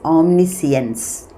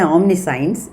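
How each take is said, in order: First: The ending does not sound like science. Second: The ending sounds like the word science. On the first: The speaker calls it right. "The correct uh, pronunciation is omniscience" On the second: The speaker calls it wrong. "omni plus science, you don't say omniscience"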